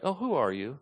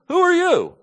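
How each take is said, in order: First: Soft, innocent, honest question; genuinely curious. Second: Sharp, high, loud hostile challenge; with attitude. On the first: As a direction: ask as if you truly want to know. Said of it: "don't think they were saying it like". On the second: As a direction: fling it at him like a hostile accusation. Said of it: "I gotta say it with some attitude". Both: Shown as a demonstration.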